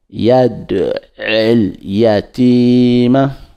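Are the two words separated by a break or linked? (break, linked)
linked. The two words run together without a break. "quand on fait la liaison"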